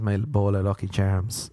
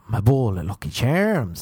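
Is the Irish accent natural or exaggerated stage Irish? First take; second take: natural; exaggerated. First: It is said in a natural Irish accent. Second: It is said in an exaggerated stage-Irish accent. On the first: "that's my voice" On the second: "like an American doing Irish"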